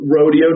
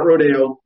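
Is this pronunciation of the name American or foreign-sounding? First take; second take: American; foreign. First: The name is said with an American pronunciation. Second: The name is said with a foreign pronunciation. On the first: The speaker calls it right. "You say it like Americans" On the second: The speaker calls it wrong. "we're not using that foreign pronunciation"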